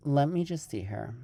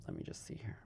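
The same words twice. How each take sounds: First: Said in the usual way. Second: Whispered to herself; whispering. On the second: Real, not acted. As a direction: breathe it out, no voice. Repeated as a whisper.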